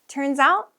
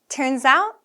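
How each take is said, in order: No difference in how they are said.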